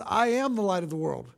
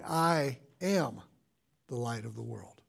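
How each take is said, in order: First: Said in the usual way. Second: "I am" set apart by a pause, the rest much softer and lower; quiet, weighty "I am"; stress on I am. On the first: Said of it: "it's so easy for us to blow right through them". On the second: Shown as a demonstration. Pastor revealing the hidden "I am" statement, hushed and weighty. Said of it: "we don't realize that he was making that statement".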